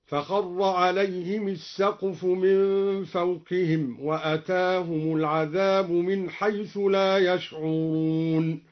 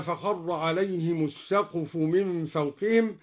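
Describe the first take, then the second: First: "عليهم" as alayhimi before "السقف"; slow recitation, "عليهم السقف" said alayhimis-saqfu; kasra on mim. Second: Said in the usual way. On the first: Shown as a demonstration. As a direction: chant slowly with an i after the m of "عليهم". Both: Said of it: "بكسر الميم".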